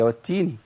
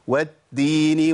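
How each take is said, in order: First: The first consonant is a voiceless t sound. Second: The first consonant is a voiced d sound. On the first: The speaker calls it right. "هي والتيني، لابد من الهمس" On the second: The speaker calls it wrong. "في ناس بتقول إيه؟"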